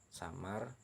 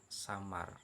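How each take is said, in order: No difference in how they are said.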